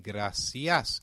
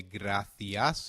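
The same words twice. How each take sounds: First: Gracias with a clear s, grah-see-as; Latin American Spanish. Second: Gracias with a lisped th, grah-thee-as; European Spanish. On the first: Teacher models the Latin American way, gracias with s. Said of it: "in Latin American Spanish". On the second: Teacher models the European way, gracias with th. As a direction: say gracias the Castilian way, c as th. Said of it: "we will say ... in European Spanish". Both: Shown as a demonstration.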